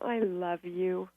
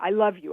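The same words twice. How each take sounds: First: It sounds sincere and heartfelt. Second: It sounds insincere, not heartfelt. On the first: The speaker truly means it. "that was the true one" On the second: The speaker does not truly mean it. "very different intentions"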